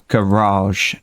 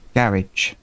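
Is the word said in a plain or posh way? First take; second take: posh; plain. First: The word is said in a posh way. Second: The word is said in a plain, everyday way.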